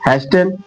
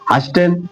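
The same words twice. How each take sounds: First: The t sound is pronounced in the middle. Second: The same.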